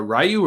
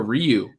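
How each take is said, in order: First: "Ryu" said as RYE-you; first pronunciation variant. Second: "Ryu" said as REE-you; second pronunciation variant. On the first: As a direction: open with a "rye" sound in "Ryu". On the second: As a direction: open with a "ree" sound in "Ryu". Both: Shown as a demonstration. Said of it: "Ryu or Ryu".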